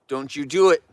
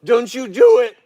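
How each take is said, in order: First: Said in the usual way. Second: High, loud warning shout; firm warning shout. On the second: Real, not acted. Owner warning a bear off the cushion with a loud shout. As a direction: bark the warning at her like a strict owner. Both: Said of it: "When I talk to her like this".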